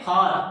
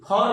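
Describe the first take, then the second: First: The vowel is an open 'ah' sound. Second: The vowel is a rounded 'aw' sound. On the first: The speaker calls it right. "फार पढ़ेंगे इसको" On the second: The speaker calls it wrong. "फॉर नहीं"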